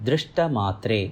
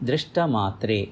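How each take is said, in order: No difference in how they are said.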